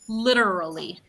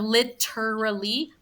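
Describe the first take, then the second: First: The middle consonant sounds soft, like a D. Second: The middle consonant sounds like a clear T. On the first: The speaker calls it right. "use your tongue almost like a letter D" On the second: The speaker calls it wrong. "Instead of literally"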